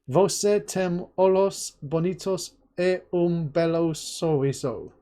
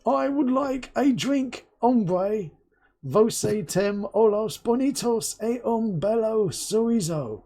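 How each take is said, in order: First: "Você tem olhos bonitos e um belo sorriso" spoken slowly, syllable by syllable; hesitant Portuguese attempt; slow careful Portuguese. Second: A slow, higher-pitched, mildly loud "Você tem olhos bonitos e um belo sorriso"; mock English tourist in Portugal speaking slowly. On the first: Shown as a demonstration. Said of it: "Did I butcher that?". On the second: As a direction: ham up a clumsy Brit abroad addressing a waiter. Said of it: "the Englishman on holiday ... really loudly".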